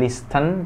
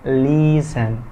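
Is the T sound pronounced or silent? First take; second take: pronounced; silent. First: The T sound is pronounced. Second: The T sound is silent. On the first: The speaker calls it wrong. "bukan listen" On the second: The speaker calls it right. "T dari kata listen itu nggak dibaca"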